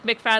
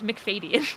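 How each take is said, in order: First: The name is said with fewer syllables. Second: The name is said with extra syllables. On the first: The speaker calls it wrong. "I always just said like McFadden like that" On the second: The speaker calls it right. "there's like a couple more syllables in there"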